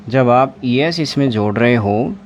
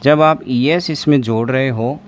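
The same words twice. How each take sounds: The two takes are said the same way.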